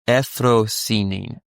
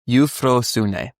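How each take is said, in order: First: The first vowel is said as a plain vowel. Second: The first vowel is said as a gliding diphthong. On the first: "they choose the other pronunciations" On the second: "Euphrosune is like the root"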